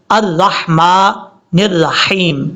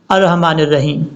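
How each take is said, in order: First: Slow 'الرحمن الرحیم', held vowels; correct recitation. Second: 'الرحمن الرحیم' run together; hurried wrong recitation. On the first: Teacher shows the right reading, slow correct recitation. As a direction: stretch 'الرحمن الرحیم' with fine throaty ح. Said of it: "صحیح پڑھنے کا طریقہ". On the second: Teacher shows people reading in haste, hurried recitation. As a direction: rush 'الرحمن الرحیم' with a plain h. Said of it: "جلدی میں پڑھ جاتے ہیں". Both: Shown as a demonstration.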